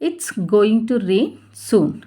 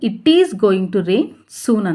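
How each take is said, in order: First: 'It is' is contracted to one syllable. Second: 'It is' is said as two full words.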